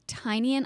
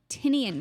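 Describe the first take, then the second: First: The first syllable sounds like 'tie'. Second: The first syllable does not sound like 'tie'. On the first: The speaker calls it right. "called Tiny, tiny Onion?" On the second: The speaker calls it wrong. "I thought it was Tinian"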